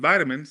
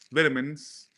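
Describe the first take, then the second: First: It is said with an American accent. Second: It is said with a British accent.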